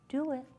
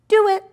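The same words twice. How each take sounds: First: It is said softly and gently. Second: It is said loudly and sharply.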